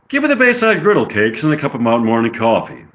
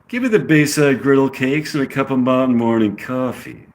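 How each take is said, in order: First: It is said in the speaker's plain accent. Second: It is said in a California accent.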